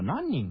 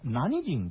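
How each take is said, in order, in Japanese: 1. 「何人」は nannin と読む。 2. 「何人」は nanijin と読む。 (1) "読み間違えていた" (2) "答えはポルトガル人。"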